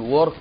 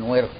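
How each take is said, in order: First: The first vowel is u, then no vowel. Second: The first vowel is i, then no vowel.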